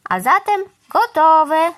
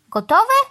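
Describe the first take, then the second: First: Slow, loud, high announcement; satisfied declaration, stretched out; declaring. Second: High, loud, rising query; startled, pitch leaping up; astonished question. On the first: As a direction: announce the job finished, drawn out. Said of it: "stwierdziła". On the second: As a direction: ask it in sharp disbelief. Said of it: "zdziwił się pan Wrona". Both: A narrator's reading.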